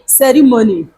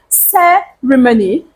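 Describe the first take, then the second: First: The stress is not on the first syllable. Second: The stress is on the first syllable. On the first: The speaker calls it wrong. "People say ceremony, which is not supposed to be" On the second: The speaker calls it right. "placing your stress on the first syllable of that word"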